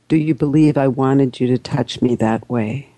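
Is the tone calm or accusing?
calm. It is said in a calm, lowered tone.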